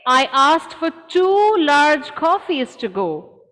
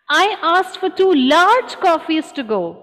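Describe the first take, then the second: First: The word two carries the main stress. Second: The word large carries the main stress. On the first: The waiter brought only one coffee. "I order two. Your voice is um, stressing on that" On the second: The waiter brought small coffees. "she brought me two small"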